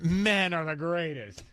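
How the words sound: It is said with a mocking, sarcastic tone. Men are not the greatest. "But yet you have her tone"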